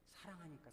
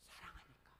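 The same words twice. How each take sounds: First: A much softer, tender "사랑하니까" falling away; tender answer. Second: A much softer, tender "사랑하니까" trailing down; tender answer. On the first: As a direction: say "사랑하니까" quietly, with feeling. Answering why, same softness. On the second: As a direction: breathe "사랑하니까" out gently, almost to yourself. Answering why the father ran. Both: Real, not acted. (부드럽고 작게 "사랑하니까")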